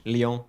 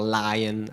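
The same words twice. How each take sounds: First: "Lyon" slowly as French "lee-OHN"; French pronunciation demo. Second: "Lion" as English "LIE-un"; English pronunciation demo. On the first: Teacher naming the next ship, slow French "Lyon". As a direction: model "Lyon" with a nasal ending. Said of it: "same as the English". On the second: Teacher quoting the English version, anglicised "Lion". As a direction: say "Lion" like the animal, slowly. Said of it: "as some would say". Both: Shown as a demonstration.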